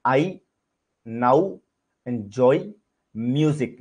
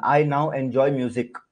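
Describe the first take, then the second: First: I, now, enjoy, music, each word set apart by a pause. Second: Said in the usual way. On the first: Shown as a demonstration. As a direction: dictate it one word at a time, pausing after each.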